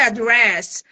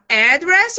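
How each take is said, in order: First: The stress is on the first syllable. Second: The stress is on the second syllable. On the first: It is used as a noun. "o outro é o nome" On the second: It is used as a verb. "uma é o verbo"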